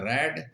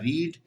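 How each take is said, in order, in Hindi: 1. स्वर छोटी 'e' ध्वनि है। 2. स्वर लंबी 'ee' ध्वनि है। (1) "सेकंड में बोला जाता है रेड" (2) "फर्स्ट फॉर्म में तो बोला जाता है रीड"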